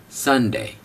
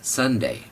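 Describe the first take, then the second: First: The correct English संडे; correct Sunday. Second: संडे with a hard retroflex ड, the common mistake; the incorrect Indian संडे; wrong Sunday. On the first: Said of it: "चलिए बोलिए, संडे।". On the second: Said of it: "don't say संडे". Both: Shown as a demonstration.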